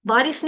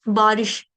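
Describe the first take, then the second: First: बारिश ending in "s", as बारिस; "s" in place of "sh" in बारिश; mispronounced श. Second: बारिश ending in a clear "sh"; careful "sh" at the end of बारिश; correct श. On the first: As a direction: end बारिश on a plain स. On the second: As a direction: finish बारिश on a full श. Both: Shown as a demonstration. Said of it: "बारिश नहीं है".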